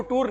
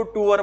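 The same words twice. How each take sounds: First: टूर said as one clipped syllable, "toor"; टूर in one short syllable, the wrong way; wrong pronunciation. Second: टूर said slowly as two syllables, "tu-ar"; correct pronunciation. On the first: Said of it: "इसको टूर नहीं बोलना". (टूर को एक ही छोटे अक्षर में, गलत तरीके से) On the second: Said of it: "क्या बोलना है आपने?". (टूर को धीरे से दो अक्षरों में, "टू-अर") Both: Shown as a demonstration.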